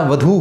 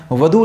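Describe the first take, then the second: First: "वधू" ending in a long oo; correct long u. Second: "वधू" ending in a short u; wrong short u. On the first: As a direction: say "वधू" as va-dhoo, last vowel held. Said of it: "वधू होता है". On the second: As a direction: say "वधू" as va-dhu, last vowel cut short. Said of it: "वधू नहीं होता". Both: Shown as a demonstration.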